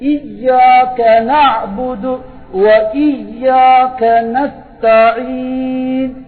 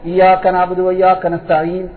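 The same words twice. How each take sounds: First: The y sound in iyyaka is pressed and doubled. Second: The y sound in iyyaka is short and single. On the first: The speaker calls it right. "அழுத்தணும். சப்து இருக்குது" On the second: The speaker calls it wrong. "அர்த்தம் மாறும்"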